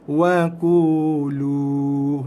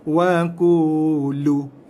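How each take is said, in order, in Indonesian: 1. Vokal akhir ditahan selama dua ketukan. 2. Vokal akhir dipotong pendek. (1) "Lajakkan dua harakat sehingga dua harakat" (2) "Bukannya dibaca wa qulu"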